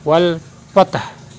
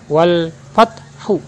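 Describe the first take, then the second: First: The final vowel ending is dropped. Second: The final vowel ending is pronounced. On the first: This is how it is read when stopping. "Cara membacanya" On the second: This is the full written form. "Kalimat aslinya"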